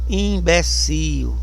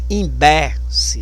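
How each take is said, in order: First: The stress is on the last syllable. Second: The stress is on the middle syllable. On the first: This is the Portuguese pronunciation. "O forte é no io" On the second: This is the Spanish pronunciation. "Mas em espanhol é no e"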